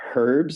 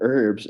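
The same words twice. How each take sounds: First: It is said with a British pronunciation. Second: It is said with an American pronunciation. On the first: The speaker calls it wrong. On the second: The speaker calls it right.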